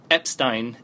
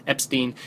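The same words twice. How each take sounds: First: Epstein with a long i ending; Epstein as EP-stine. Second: Epstein with a long ee ending; Epstein as EP-steen. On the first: Reviewer naming the narrator he criticises, Epstein said EP-stine. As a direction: say Epstein slowly, ending like fine. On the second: Reviewer offering the other surname, Epstein said EP-steen. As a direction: say Epstein slowly, ending like green. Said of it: "Adam Epstein". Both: Real, not acted.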